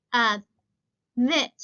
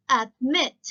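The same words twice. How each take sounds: First: "admit" broken in two, ad... MIT; loud, separated syllables in "admit", weight on "mit"; syllables split, second stressed. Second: "admit" as one word, louder on "mit"; stress on second syllable. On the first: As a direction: pause inside "admit", then hit "mit" hard. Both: Shown as a demonstration. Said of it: "es más fuerte la pronunciación de la segunda".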